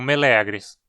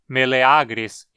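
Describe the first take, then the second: First: The stress is on the second syllable. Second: The stress is on the third syllable. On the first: The speaker calls it wrong. "e não meleagris" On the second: The speaker calls it right. "o a que forma a penúltima sílaba é longo. Então dizemos meleagris"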